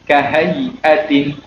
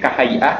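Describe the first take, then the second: First: The word ends with a tin sound. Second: The word ends with a plain vowel. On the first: The reading continues without stopping. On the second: The reader stops on this word.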